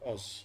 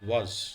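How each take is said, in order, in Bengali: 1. শব্দটি একটি সাধারণ স্বরধ্বনি দিয়ে শুরু হয়। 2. শব্দটি 'w' ধ্বনি দিয়ে শুরু হয়। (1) "not অজ" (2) "the word is ওয়াজ"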